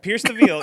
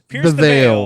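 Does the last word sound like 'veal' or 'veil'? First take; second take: veal; veil. First: The last word sounds like 'veal'. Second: The last word sounds like 'veil'. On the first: The speaker calls it wrong. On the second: The speaker calls it right.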